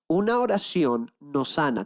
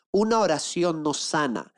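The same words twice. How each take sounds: First: "Una oración no sana" más despacio y marcando "Una"; repítelo despacio, recalcando cada palabra; más lento, enfático. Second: Said in the usual way. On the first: Shown as a demonstration. (repite la frase a la congregación, lento y enfático)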